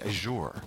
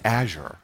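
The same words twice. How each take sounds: First: It is said the European way. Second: It is said the American way. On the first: "Europeans also all say Azure" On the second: "Americans mostly say Azure"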